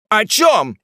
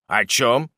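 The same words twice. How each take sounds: First: High, loud, astonished question; sudden shouted question; chorus of questioners. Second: Said in the usual way. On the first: Acted. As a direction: burst out asking like a whole crowd. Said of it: "спросили вдруг двенадцать голосов".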